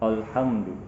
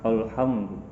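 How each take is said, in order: First: The opening sound is heavy and thickened. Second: The same.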